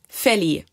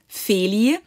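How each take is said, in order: First: The first vowel is clipped short. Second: The first vowel is held long. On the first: The speaker calls it wrong. "short would be" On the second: The speaker calls it right. "long would be"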